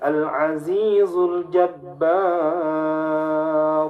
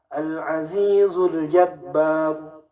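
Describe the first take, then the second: First: The long vowel in Jabbar is held very long. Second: The long vowel in Jabbar is held briefly. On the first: "Atau dibaca enam" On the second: "bisa dibaca dua"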